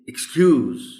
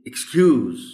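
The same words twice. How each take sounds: First: The stress is on the second syllable. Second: The stress is on the second syllable.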